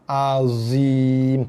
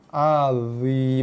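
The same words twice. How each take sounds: First: The consonant is a plain, light z sound. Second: The consonant is an emphatic, heavy dha sound. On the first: The speaker calls it wrong. "bukannya azim" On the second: The speaker calls it right. "Makhraj dha azim"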